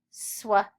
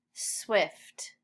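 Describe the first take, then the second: First: Swift broken into separate sounds, sw, i-f, t; sounded out. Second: Said in the usual way. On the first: Shown as a demonstration. Teacher models sounds before reading, sounded out. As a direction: sound out Swift with gaps between the parts. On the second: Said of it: "Read swift".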